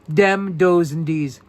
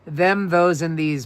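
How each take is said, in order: First: The words start with a hard d sound. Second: The words start with a soft th sound.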